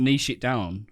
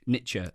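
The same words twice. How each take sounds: First: Niche said as neesh, rhyming with quiche; British pronunciation. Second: Niche said as nitch, rhyming with itch; American pronunciation. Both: Shown as a demonstration. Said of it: "as the Americans say".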